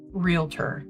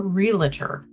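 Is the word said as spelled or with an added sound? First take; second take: as spelled; added sound. First: The word is said just as it is spelled. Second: The word is said with an added sound. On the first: The speaker calls it right. "you pronounce that word realtor" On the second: The speaker calls it wrong. "It is not a realtor"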